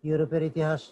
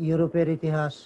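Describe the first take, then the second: No difference in how they are said.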